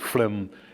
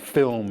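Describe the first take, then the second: First: It is said with a foreign accent. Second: It is said with a native English pronunciation. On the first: The speaker calls it wrong. "instead of" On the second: The speaker calls it right.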